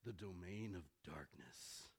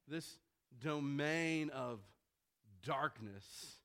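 First: It is said in a deep Batman voice. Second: It is said in his normal voice.

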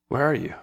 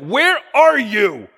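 First: It sounds warm and loving, like a smiling father. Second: It sounds menacing and accusing, like a boogeyman.

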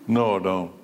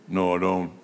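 No difference in how they are said.

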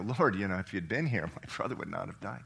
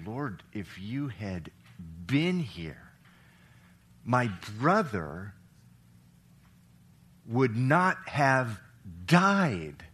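First: It is said flatly, without emotion. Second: It is said with strong, heavy emotion.

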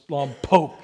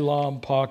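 First: The last syllable sounds like poke. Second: The last syllable does not sound like poke. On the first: The speaker calls it right. "it's Lompoc. ... Poke" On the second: The speaker calls it wrong. "don't say Lompoc"

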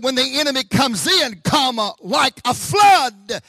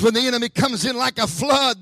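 First: It breaks with a pause after "in". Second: It runs on with no pause after "in".

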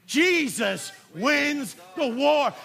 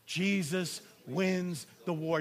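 First: The line is said loudly with strong conviction. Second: The line is said in a plain, even voice. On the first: "Now say it like you mean it" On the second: "Say it with me"

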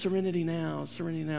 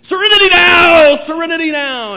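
First: It is said calmly and quietly. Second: It is shouted loudly.

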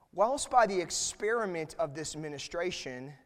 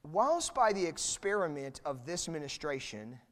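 The two takes are said the same way.

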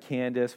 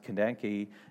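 First: The name ends with an s sound. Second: The name ends with a kee sound. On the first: This is how the name is usually said today. "we pronounce it Candace" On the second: This is probably how the name was originally said. "it was probably actually technically pronounced Kandanki"

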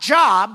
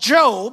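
First: The vowel is short, like in 'job'. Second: The vowel is long, like in 'robe'. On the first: The speaker calls it wrong. "it's not Job" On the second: The speaker calls it right. "but Job, although they're spelled the same"

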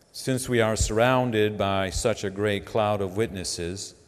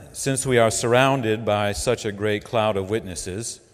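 The two takes are said the same way.

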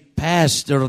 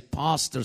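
First: It is said with an American accent. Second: It is said with a South African accent. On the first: "In South Africa, we don't say pastor" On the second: "We say pastor"

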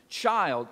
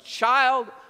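First: It is said in a plain reading voice. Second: It is said like a scolding Southern mama.

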